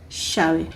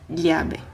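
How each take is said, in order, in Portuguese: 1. O dois L's soa como 'sh'. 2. O dois L's soa como 'lh' palatal. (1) "os argentinos e uruguaios... porém com o som do X" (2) "O primeiro seria o som de L H"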